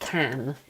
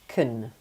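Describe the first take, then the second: First: The vowel is a full, open strong sound. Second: The vowel is a reduced, weak schwa. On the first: "then we have the strong version of can, which is the way I'm saying it now" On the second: "for you to pronounce this in a weak way, you would say kun"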